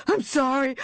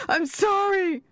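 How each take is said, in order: First: High, shouted apology, leaning on I'm; panicked shout. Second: Much higher, shrieking out sorry; screamed apology. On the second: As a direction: scream it at the top of the voice. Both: Acted. Buried man begs forgiveness.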